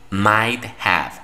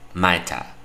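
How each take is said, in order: First: Have is pronounced fully as a separate word. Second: Have is reduced and joined into one word.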